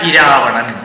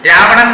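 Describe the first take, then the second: First: The name starts with an added i vowel. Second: The name starts directly with an r sound. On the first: This is how Tamils say it. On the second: Tamils do not say it this way.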